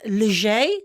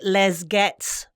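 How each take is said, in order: First: The final consonants are silent. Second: The final consonants are sounded. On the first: The speaker calls it right. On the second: The speaker calls it wrong.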